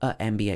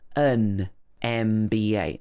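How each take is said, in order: First: The article has no n sound before MBA. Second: An n sound links the article into MBA. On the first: The speaker calls it wrong. "not a M B A" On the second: The speaker calls it right. "These two words join together"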